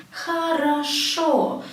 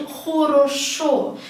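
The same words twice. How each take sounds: First: "хорошо" as kha-ra-SHO, slowly; correct vowel reduction. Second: "хорошо" as kho-ro-SHO, slowly; wrong unreduced vowels. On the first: Teacher showing the Russian rule, "хорошо" said kha-ra-SHO. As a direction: open A in the first two syllables of "хорошо", stressed final O. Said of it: "they will be pronounced as A". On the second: Teacher showing what not to say, "хорошо" with every O full. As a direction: round all three O's in "хорошо". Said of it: "why do I say хорошо". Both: Shown as a demonstration.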